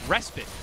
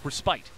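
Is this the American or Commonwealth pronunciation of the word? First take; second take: American; Commonwealth. First: It is said with the American English pronunciation. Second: It is said with the Commonwealth English pronunciation. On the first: "The American English is respite" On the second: "if you're from the Commonwealth, it's respite"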